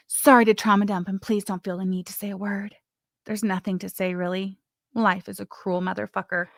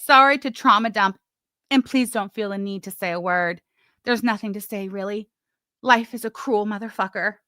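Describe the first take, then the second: First: Melodramatic reading. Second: Hammed-up tragic reading of a message; melodramatic reading. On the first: Retold or imitated. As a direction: sigh it out like a sad soap heroine. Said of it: "But that's how I sounded". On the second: Vlogger reads the message aloud in a mock melodramatic tone. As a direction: overplay it like a soap opera confession. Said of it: "I read it very, very melodramatic-like".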